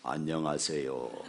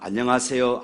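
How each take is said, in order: First: It is said in a pious, solemn way. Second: It is said in a casual, everyday way.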